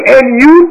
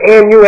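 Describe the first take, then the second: First: And you with you lifted high and louder on a rising tune; stress on YOU. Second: Said in the usual way. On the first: Shown as a demonstration. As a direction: punch the word you, rising, to make it personal. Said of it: "to put emphasis on you". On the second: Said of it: "it's an emphatic position".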